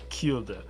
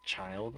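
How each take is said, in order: First: It sounds like 'keel-duh', two syllables. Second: It sounds like the word 'child', one syllable. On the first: This is the speaker's own unusual way of saying it. "K E E L dash D U H. Like Kilda" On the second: This is how most people say it. "people say it's child"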